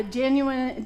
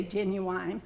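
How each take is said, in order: First: Said in the usual way. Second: "genuine" ending in "wine", genu-WINE; drawn-out genu-wine with a long "wine" ending; Southern genuine. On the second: Shown as a demonstration. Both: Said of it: "in the South we say genuine".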